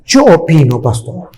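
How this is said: It is said in a put-on voice.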